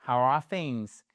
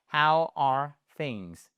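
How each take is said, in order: First: Said in the usual way. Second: "How are things" said very slowly, each word drawn out; slow it right down for learners to copy; careful slow-motion model of "How are things"; slow repeat. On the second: Shown as a demonstration. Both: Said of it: "allez-y".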